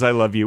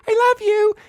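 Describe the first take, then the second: First: Said in the usual way. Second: Very high, squeaky affectionate sign-off; car bush. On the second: Retold or imitated. Talking bush says goodbye to son, sweet squeaky voice. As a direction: say it in a silly, loving squeak. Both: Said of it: "the car bush always says".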